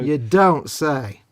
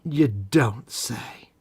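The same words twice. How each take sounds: First: Sarcastic. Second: Slow, breathy whispered aside. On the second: Sly whisper to his co-host, teasing him. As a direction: hush it out, very slowly. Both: Acted. Mock reply to Cole's quirks.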